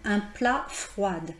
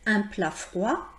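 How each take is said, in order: First: The final D sound is pronounced. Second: The final D sound is silent. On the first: The speaker calls it wrong. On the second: The speaker calls it right.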